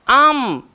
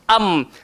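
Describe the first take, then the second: First: The syllable rises up into the nose. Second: The syllable comes from low in the throat. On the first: The speaker calls it wrong. "ada di kalangan kita yang naik am" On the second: The speaker calls it right. "Sepatutnya am ni dia bawah, hamzah keluar bawah ni"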